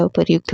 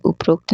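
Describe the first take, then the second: First: उपर्युक्त said as "uparyukt"; "u-par-yukt" for उपर्युक्त; correct form. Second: उपरोक्त said as "uprokt"; "up-rokt" for उपरोक्त; wrong form. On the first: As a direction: say उपर्युक्त with r-yu in the middle. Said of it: "होता है". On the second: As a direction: say उपरोक्त with an o after r. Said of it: "नहीं होता". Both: Shown as a demonstration.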